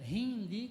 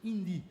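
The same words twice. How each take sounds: First: It starts with a breathy h-like sound. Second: It starts directly with the vowel. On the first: This is the English pronunciation. "Em inglês é hindi, com um som de R" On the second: This is the Portuguese pronunciation. "mas em português, hindi"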